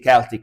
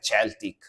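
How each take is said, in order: First: It is said with a hard K sound first. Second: It is said with an Italian-style first sound. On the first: "I force myself to say Celtic with the K" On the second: "if I wanted to say their name normally in Italian, I would say like Celtic"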